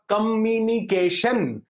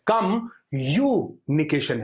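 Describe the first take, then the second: First: The middle syllable sounds like 'me'. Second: The middle syllable sounds like 'you'. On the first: The focus is on oneself. The speaker calls it wrong. "अगर मी बोला गया होता तो यह होता" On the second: The focus is on the other person. The speaker calls it right. "कम यूनिकेशन है"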